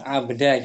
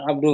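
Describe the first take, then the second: First: The word ends with an 'a' vowel. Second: The word ends with a 'u' vowel. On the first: The speaker calls it right. "Nah, abda gitu" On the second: The speaker calls it wrong. "Bukan bukan abdu kan?"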